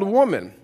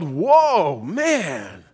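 First: The stress falls on the first syllable. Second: The stress falls on the second syllable. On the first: The speaker calls it right. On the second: The speaker calls it wrong.

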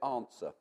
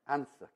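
First: It is said with his native southern accent. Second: It is said with a northern Newcastle accent.

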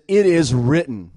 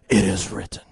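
First: It is said in the speaker's normal voice. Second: It is said in a deep, gravelly put-on voice.

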